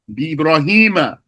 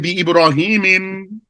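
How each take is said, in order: First: The name ends with a short 'a' vowel. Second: The name ends with an added 'im' sound. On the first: The speaker calls it right. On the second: The speaker calls it wrong. "You don't say"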